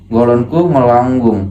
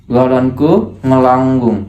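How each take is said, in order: Both takes have the same delivery.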